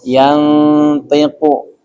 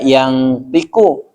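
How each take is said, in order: First: The nasal is a muffled sound only close to n. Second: The nasal sounds like ng before the t. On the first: The speaker calls it right. "tapi dibacanya mendekati huruf n" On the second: The speaker calls it wrong. "jangan dibaca yang tiku"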